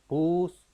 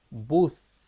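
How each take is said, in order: First: The first sound is emphasized and drawn out. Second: The last sound is emphasized and drawn out. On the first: "haciendo énfasis primero en la, el fonema inicial" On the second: "con el fonema final, él tendrá que hacer una marcada diferencia en el sonido"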